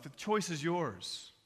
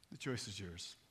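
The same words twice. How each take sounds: First: Slow, full-voiced declaration; measured preacher's appeal; solemn challenge. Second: Very low, soft repeat; grave, intimate appeal; hushed challenge. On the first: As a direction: lay the decision before them deliberately. Preacher's challenge, then hushed repeat. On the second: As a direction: drop it almost to a murmur. Same challenge repeated after long pause. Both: Real, not acted.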